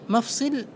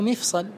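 First: The first vowel is a, the second is i. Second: The first vowel is i, the second is a. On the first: It means a joint of the body. "كمسجد" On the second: It means the tongue. "كمنبر"

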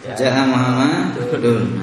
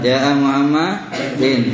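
First: The name ends with an -un sound. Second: The name ends with an -in sound. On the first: The speaker calls it right. "Yang betul apa?" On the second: The speaker calls it wrong. "enggak boleh ... Salah"

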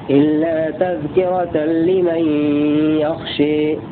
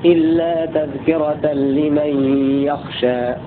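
First: The final vowel is strongly raised toward e. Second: The final vowel is an open a sound. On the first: "ثم الإمالة لخلاد والكسائي" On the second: "هذه رواية قانون اتفق معه ابن كثير"

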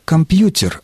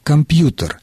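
First: The t before the e sound is softened. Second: The t before the e sound stays hard. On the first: The word is felt as a native Russian word. "мы стали произносить его не как «компьютер»" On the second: The word is still felt as a foreign borrowing. "звук «э» после согласного не смягчает этот согласный"

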